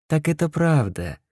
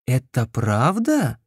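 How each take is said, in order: First: Settled conclusion, falling; concluding. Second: Slow, astonished question; wide-eyed question. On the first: Miyaka drawing her conclusion about the brother, knowingly. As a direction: state it as a knowing verdict. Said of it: "заключила Мияка". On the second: Miyaka astonished at the brother's secret, asking. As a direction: ask it in disbelief. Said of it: "Мияка вытаращила глаза". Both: A narrator's reading.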